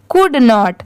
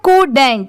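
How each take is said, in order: First: It is said as two full separate words. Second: It is said as one contracted word. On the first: "इसका पूरा मतलब है कुड नॉट" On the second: "इसे short में कैसे लिखा गया है? ... तो इसे साथ में क्या पढ़ा जाता है?"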